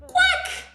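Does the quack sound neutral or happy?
happy. The quack sounds happy and high-pitched.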